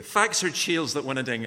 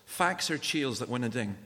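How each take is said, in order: First: Louder, deliberate broad Scots; broad Scottish accent. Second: Scots saying in broad Scots; broad Scottish accent. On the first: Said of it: "Say that again, just a bit more slowly". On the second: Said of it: "in Scottish". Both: Shown as a demonstration.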